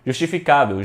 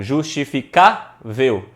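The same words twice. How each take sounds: First: Said in the usual way. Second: "justificável" slowly broken up, CÁ punched; syllables, stress on CÁ. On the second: Shown as a demonstration. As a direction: sound out "justificável" piece by piece, leaning on "cá". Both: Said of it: "Aí você bate lá na porta".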